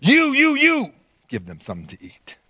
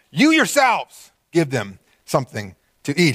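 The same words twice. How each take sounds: First: Repeated "You, you" punched high, rest drops; emphatic you. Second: "You yourselves" stressed, slow; slow emphatic "You yourselves give them something to eat.". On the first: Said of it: "for the sake of emphasis". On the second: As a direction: lean hard on "You yourselves". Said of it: "it's emphatic". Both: Shown as a demonstration.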